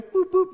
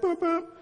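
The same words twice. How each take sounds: First: High-pitched boop boop, a bit louder, like a car horn; mimicked horn, more insistent; louder horn beeps. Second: Light high-pitched boop boop like a car horn; mimicked horn, gentle; horn beeps. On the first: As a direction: lean on the horn harder with your voice. Honking the horn again. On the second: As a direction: tap the horn with your voice, lightly. Imitating the truck horn.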